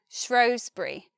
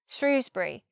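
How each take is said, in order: First: The first vowel is an oh sound. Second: The first vowel is a long oo. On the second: "with the long oo, the oo vowel"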